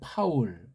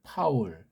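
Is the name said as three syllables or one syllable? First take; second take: one syllable; one syllable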